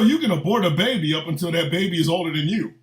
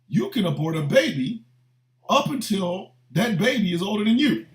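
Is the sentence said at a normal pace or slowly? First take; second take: normal; slowly. First: The sentence is said at a normal pace. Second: The sentence is said slowly and deliberately.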